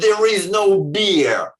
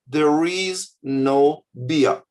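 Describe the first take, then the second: First: It is said in a harsh, aggressive tone. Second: It is said in a calm, neutral tone. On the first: The reader hears hostility the writer may not have meant. The speaker calls it wrong. "they've written" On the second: It is a plain statement of fact. The speaker calls it right. "You could write a normal human way"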